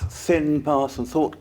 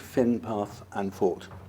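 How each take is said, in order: First: The words begin with a TH sound. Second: The words begin with an F sound.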